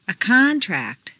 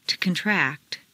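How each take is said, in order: First: CONtract, stressed on the first syllable. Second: ConTRACT, stressed on the second syllable. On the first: Teacher models noun "contract", first-syllable stress. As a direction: hit CON in "contract". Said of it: "first syllable for nouns". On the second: Teacher models verb "contract", second-syllable stress. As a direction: hit TRACT in "contract". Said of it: "to the second syllable". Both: Shown as a demonstration.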